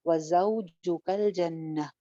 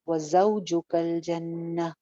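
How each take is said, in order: The two takes are said the same way.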